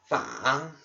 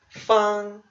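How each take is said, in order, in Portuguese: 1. É dito com o terceiro tom. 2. É dito com o primeiro tom. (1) "Terceiro tom" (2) "esse caractere se lê no primeiro tom"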